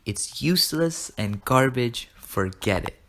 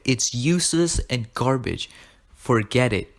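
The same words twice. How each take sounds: First: Slow, measured acted dismissal; drawn-out verdict, dropping on "Forget it"; deliberate repeat. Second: Emphatic, slowed-down acted rejection; firm, forceful mock scolding; dismissive dad. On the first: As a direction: repeat it slowly so it sinks in. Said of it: "I repeat". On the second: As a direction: imitate a father shutting the idea down.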